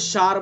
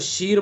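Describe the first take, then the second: First: The vowel is a long a. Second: The vowel is a long i. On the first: "अगर ज़बर पढ़ेंगे तो शार बन जाएगा" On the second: "अगर ज़ेर हम पढ़ेंगे तो शीर बन जाएगा"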